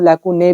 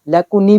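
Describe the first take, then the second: First: The word ends with an 'ay' sound. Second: The word ends with an 'ee' sound. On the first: "लेकुने भी बोल देते हैं" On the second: "लेकुनी भी बोलते हैं इसको"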